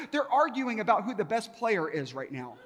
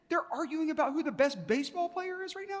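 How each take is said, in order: First: Said in the usual way. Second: Very high-pitched disbelieving question; incredulous echo. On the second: Retold or imitated. Visitor echoing guide's answer about best player, incredulous. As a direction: repeat it back as an astonished question, pitched way up.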